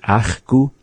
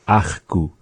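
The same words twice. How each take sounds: First: "Ach gu" in the way Eli Stice said it, one variant of the ach; Eli Stice's Ach gu. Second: "Ach gu" as Beatrice Elliott says it, with the other ach sound; Beatrice Elliott's Ach gu. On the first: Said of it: "the way that Eli Stice was often saying it". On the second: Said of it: "where she would say". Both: Retold or imitated.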